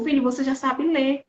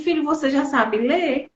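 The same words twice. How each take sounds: First: "Filho, você já sabe ler." stated flatly, falling on "ler"; firm affirmation. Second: "Filho, você já sabe ler?" asked as a doubting question with a rise; mother asking whether "ler" is possible. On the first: Mother affirming her struggling son, firm falling statement. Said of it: "mas ela afirmou". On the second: Mother testing her struggling son, asking in doubt. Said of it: "Ela fez assim". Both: Retold or imitated.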